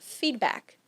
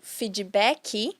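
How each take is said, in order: First: It is said with English sounds. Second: It is said with Brazilian Portuguese sounds. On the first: The word keeps its original English pronunciation. "que seria feedback" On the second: The loanword has been adapted to local speech. "ou feedback"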